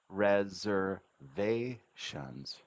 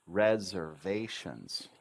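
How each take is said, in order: First: Very slow "reservations", rezzer, vay, shuns; separated syllables. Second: Slow, connected "Reservations" with Z sound and falling end; syllables rejoined. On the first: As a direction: pause before the last two syllables of reservations. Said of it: "added the Z sounding S twice". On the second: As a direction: blend the syllables of Reservations smoothly. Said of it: "Now it sounds perfect". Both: Shown as a demonstration.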